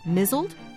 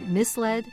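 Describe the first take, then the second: First: It is said as mizzled, rhyming with drizzled. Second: It is said as mis-led, with a clear 'led'. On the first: The speaker calls it wrong. "once pronounced the word misled, mizzled" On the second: The speaker calls it right. "pronounced the word misled"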